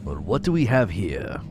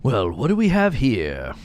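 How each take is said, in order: First: Lightly voiced German officer, a touch lower; a hint of a stiff army officer reading; officer reading his log. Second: Slow, smug sarcastic drawl; sarcastic and smarmy. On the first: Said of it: "I'm not doing a German accent". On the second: Acted. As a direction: smirk through it like a bored guard. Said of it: "so sarcastic and smarmy".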